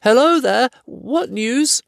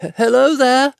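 First: Higher hobbit calling out. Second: Higher, louder call that stammers on hello; frightened hobbit calling out to unseen men; shaky voice. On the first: Acted. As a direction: steadier call across the rocks. Bilbo calls out again. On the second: A narrator's reading. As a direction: call out nervously, catching on the first word. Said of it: "he called with a shaky voice".

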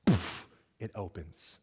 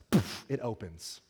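First: Said in the usual way. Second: Slow, laughing reveal; amused laugh. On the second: Retold or imitated. Preacher telling the congregation the lap bar popped, laughing. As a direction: chuckle through the punchline.

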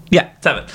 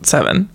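First: Seven settled with a falling tune; confirming fall. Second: Seven with a questioning rise; half-asking, unsure of the number; unsure rising question. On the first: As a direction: state it now, sure of it. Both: Real, not acted.

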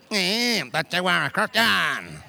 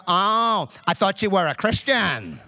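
First: Drawn-out sneer. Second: Mocking accuser. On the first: Retold or imitated. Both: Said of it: "Multiple times I had people go".

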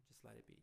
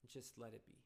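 First: Repeated much softer, letting it go; soft echo. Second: Said in the usual way. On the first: Shown as a demonstration. Advising tired parents to yield, a soft resigned echo. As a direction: say it again almost to yourself, softer. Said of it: "repeats the advice softer". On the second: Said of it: "repeats the advice to let go".

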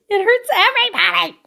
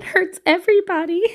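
First: Much higher, hammed-up anguished cry; bigger mock wail. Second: High-pitched, hammed-up hurt; mock lament. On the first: Parent lamenting kids crying themselves to sleep, over-the-top mock wail. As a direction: wail it out in exaggerated pain. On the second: Parent lamenting kids crying themselves to sleep, mock anguish. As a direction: playfully wail in sympathy.

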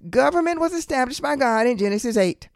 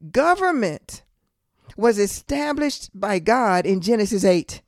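First: Said in the usual way. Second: Slow, deliberate preaching with a pause after government; really slow. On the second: Real, not acted. Preacher teaching that God established government, really slow. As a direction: spell it out slowly, phrase by phrase. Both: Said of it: "I'm gonna say this really slow".

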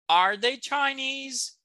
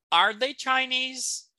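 First: Whispered model question. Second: Slow model question. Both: Shown as a demonstration. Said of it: "entonação".

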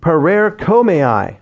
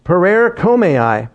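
First: Parerkomai slowly, syllable by syllable; Greek word. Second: Parerkomai slowly, stress on the third syllable; Greek word again. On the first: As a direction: sound out parerkomai carefully. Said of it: "I know that's not the way it's pronounced". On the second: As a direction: repeat Parerkomai deliberately. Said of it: "that's the way it's pronounced here tonight". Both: Shown as a demonstration.

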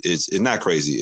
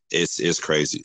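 First: "not" leaned on, correcting himself; stress on not. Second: Said in the usual way. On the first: Shown as a demonstration. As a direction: hit "not" firmly, taking back "crazy".

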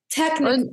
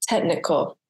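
First: Technical with the tech part pushed up high; stress on tech. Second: Said in the usual way. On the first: Shown as a demonstration. Host tries to say Technical the right way, stressing tech. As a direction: lift and punch tech in Technical. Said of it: "you don't emphasize the tech part". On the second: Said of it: "I'd say it wrong".

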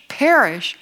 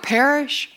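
First: Mildly disbelieving echo of PERISH; incredulous objector. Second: Said in the usual way. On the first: Acted. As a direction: question "Perish" like a mock sceptic. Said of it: "somebody who doesn't even believe there's a God". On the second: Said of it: "when you share the gospel and you say".

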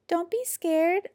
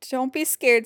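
First: Small, high, slow creature voice; little voice. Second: Said in the usual way. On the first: A narrator's reading. Little creature reassures Jim, small high voice. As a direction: say it tiny and high, drawn out. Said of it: "a little voice said". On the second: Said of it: "said Porcupine".

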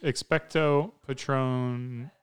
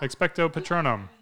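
First: Expecto Patronum drawn out slowly, each syllable apart; slow careful spell. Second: Expecto Patronum rattled off fast, clipped together; too quick spell. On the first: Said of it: "Better just say that quick". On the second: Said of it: "Too quick". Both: Shown as a demonstration.

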